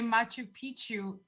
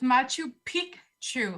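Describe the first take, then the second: First: The second word has no k sound. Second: The second word has a clear k sound. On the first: It means something rude. The speaker calls it wrong. "mispronounce it and you say Machu Picchu, as most do" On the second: It means old mountain. The speaker calls it right. "you have to pronounce it Picchu ... like peak"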